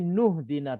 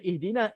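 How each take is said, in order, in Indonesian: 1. Huruf 'i' dihilangkan dan disambung ke 'nu'. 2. Kata ini dimulai dengan vokal 'i' yang terdengar. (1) "Hamzah wasal ini bila wasal dia tak ada. Jadi nuh dina terus" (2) "selalu baca ihdina"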